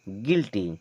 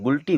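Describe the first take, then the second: First: The first vowel is an 'i' sound. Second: The first vowel is an 'oo' sound. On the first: The speaker calls it right. "और अब इसे पढ़ेंगे गिल्टी।" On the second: The speaker calls it wrong. "यहाँ पर यू हो जाएगा silent"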